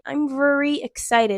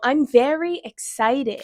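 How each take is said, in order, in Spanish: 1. La vocal en 'very' es débil y se traga. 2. La vocal en 'very' es fuerte y abierta. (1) "se come la E"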